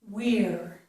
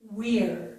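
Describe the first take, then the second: First: The vowel after the W sounds like 'ear'. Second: The vowel after the W sounds like 'ear'.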